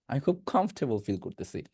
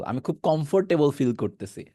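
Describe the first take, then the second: First: Sentence with কমফোর্টেবল as "KHOMF-te-bol", softer; corrected pronunciation. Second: Sentence with কমফোর্টেবল as kom-for-te-bol; old habitual mistake. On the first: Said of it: "কমফোর্টেবল বলা দরকার নাই". (কমফোর্টেবল কমফ-টে-বল উচ্চারণে) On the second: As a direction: keep the full "for" in কমফোর্টেবল. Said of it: "আর আমরা কি বলতাম?". (কমফোর্টেবল চার ভাগে, ফোর সহ) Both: Shown as a demonstration.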